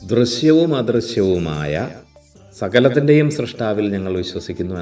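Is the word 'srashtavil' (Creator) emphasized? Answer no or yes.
no. The word for Creator gets no special emphasis. The speaker calls it wrong. "എന്നല്ല"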